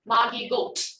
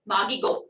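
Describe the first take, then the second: First: The final T is released with a puff of air. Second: The final T is cut off with no release. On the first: The speaker calls it wrong. "it's not t. So it's not Magigot" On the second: The speaker calls it right. "No extra air. Just stop your tongue"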